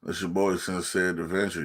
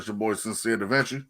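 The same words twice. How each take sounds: First: It is said with low energy. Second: It is said with high energy.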